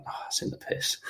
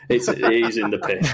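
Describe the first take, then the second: First: Whispered, dismayed aside to himself; under his breath. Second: Said in the usual way. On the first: Retold or imitated. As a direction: breathe it out like a private curse. Muttering to himself after bad shot.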